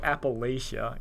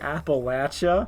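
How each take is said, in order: First: It is said the outsider, textbook way. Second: It is said the local southern way. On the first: The speaker is not from the region. The speaker calls it wrong. "that guy, he ain't from around here" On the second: The speaker is from the region. The speaker calls it right. "the pro tip is you say Appalachia, and the people go, they'll nod"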